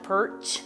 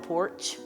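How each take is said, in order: First: The vowel sounds like 'er'. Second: The vowel sounds like 'or'. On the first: "on the perch instead of" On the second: "instead of on the porch"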